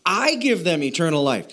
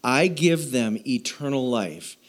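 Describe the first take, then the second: First: "I" stressed, then the line falls. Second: Said in the usual way. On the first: Shown as a demonstration. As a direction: lean on the word "I". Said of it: "Jesus is saying". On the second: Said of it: "Jesus is saying, "I give them eternal life".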